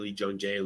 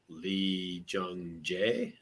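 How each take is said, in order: First: The name is said quickly in a rapid run. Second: The name is said slowly and carefully. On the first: "Five times fast" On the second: "Say it slowly"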